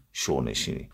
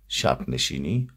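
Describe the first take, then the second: First: شو نشینی said "show-neshini", no b; شو as "sho", replacing "shab"; northern dialect form. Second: Said in the usual way. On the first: Shown as a demonstration. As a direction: demonstrate regional "show" for شب in شو نشینی.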